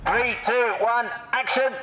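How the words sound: The voice is pitched fairly high. The speaker calls it wrong. "It's a bit high in the voice"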